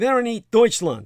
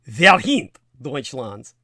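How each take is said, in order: First: It is said with an anglicized pronunciation. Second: It is said with a native German pronunciation.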